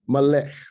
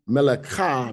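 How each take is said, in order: First: The word ends on a consonant, no final vowel. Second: The word ends with an added vowel sound. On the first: The speaker calls it right. "if she was at the end of a word, it said it'll be silent" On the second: The speaker calls it wrong. "Instead of saying melekah"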